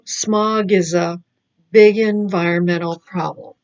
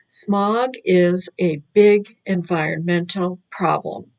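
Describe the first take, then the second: First: The words run together, with linking. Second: The words are said separately, without linking. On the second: "reading it as if it first not linking"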